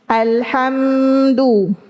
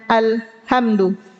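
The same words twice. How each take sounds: First: The m is held with nasal resonance. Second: The m is cut short without nasal resonance. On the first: The speaker calls it right. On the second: The speaker calls it wrong.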